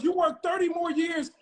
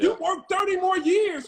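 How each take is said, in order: First: Said in the usual way. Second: Loud, high, fed-up shout; exasperated shout. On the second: Real, not acted. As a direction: yell it to shake them awake. Heated argument about working jobs.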